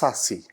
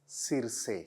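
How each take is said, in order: First: The name is pronounced the English way. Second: The name is pronounced the Spanish way. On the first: "It's uh in English" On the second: "in Spanyola it's"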